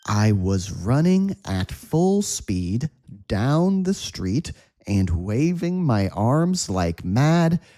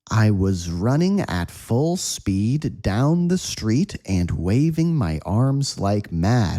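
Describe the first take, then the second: First: The sentence is spoken at a slow pace. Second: The sentence is spoken at a medium pace. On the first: "slow speed" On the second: "again at a medium speed"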